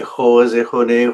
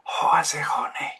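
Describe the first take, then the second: First: It is a full voiced, vibrating sound. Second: It is breathy air with no voice. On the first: The speaker calls it right. "it must be um, a, a real sound" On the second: The speaker calls it wrong. "there is no vibration. This is uh, air"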